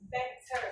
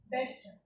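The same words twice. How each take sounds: First: Better with an r-coloured ending; better said as betterr; American better. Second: Better ending in a schwa, no r; better said as betta; British better. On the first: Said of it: "In general American". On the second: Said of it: "In general British". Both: Shown as a demonstration.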